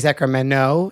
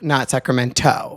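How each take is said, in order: First: The second t is not pronounced. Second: The second t is clearly pronounced. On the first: The speaker is a local. The speaker calls it right. "People from Sacramento say Sacramento" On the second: The speaker is not a local. The speaker calls it wrong.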